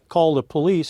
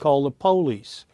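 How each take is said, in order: First: It is said with a northern US pronunciation. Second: It is said with a southern US pronunciation.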